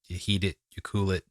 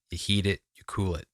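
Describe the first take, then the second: No difference in how they are said.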